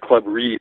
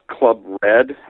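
First: The word 'Read' is said like 'reed'. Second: The word 'Read' is said like 'red'. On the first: The pun in the name is missed. The speaker calls it wrong. "which I read as Club Reed for the longest time" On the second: The name is understood as a pun. The speaker calls it right. "R-E-A-D, ... finally I figured out the cleverness of the pun"

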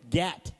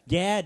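First: The word ends with a t sound. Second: The word ends with a d sound. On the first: The speaker calls it wrong. "You've been saying gat" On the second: The speaker calls it right. "Now you say gad"

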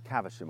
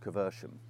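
First: It is said in a plain accent. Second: It is said in a posh accent.

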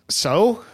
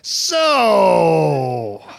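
First: It sounds embarrassed and self-conscious. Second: It sounds disgusted and repelled. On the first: The speaker has just had an embarrassing mishap. "say it like I just ripped my pants" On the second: Something gross has just happened to the speaker. "Say it like a baby just threw up on you"

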